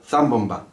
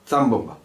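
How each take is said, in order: No difference in how they are said.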